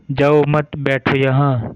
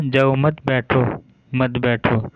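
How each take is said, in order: First: "जाओ मत" run together, pause, then "बैठो यहाँ", meaning don't go, sit here; pause after मत. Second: Slow "जाओ", pause, then "मत बैठो, मत बैठो" stressed on मत, meaning go, don't sit; pause after जाओ. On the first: Teacher demonstrating the speaker's meaning, pause after मत. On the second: Teacher showing how the listener misheard it, stress on मत. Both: Shown as a demonstration. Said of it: "उच्चारण के कारण वक्ता ने".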